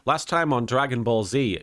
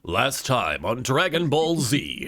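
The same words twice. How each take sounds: First: It is said in his normal voice. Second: It is said in a dramatic narrator voice.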